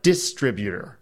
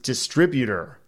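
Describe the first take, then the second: First: "distributor" with the first syllable punched, DIS-tributor; mispronunciation. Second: "distributor" said the standard way; corrected pronunciation. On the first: Mimicking co-host's mistake, "distributor" with DIS stressed. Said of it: "not distributor". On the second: Reading a listener's correction to co-host, "distributor" said the standard way. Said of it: "tell David that it's pronounced". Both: Shown as a demonstration.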